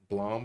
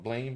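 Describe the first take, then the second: First: The vowel is an open o, like blom. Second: The vowel sounds like the English word blame.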